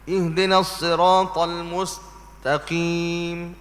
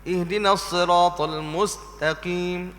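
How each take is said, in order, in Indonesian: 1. Ada jeda panjang di dalam mustaqim. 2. Tidak ada jeda, terus mengalir sampai mustaqim. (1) "Ah tu dah jadi saktah" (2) "Dia jangan beri lama berhenti tu"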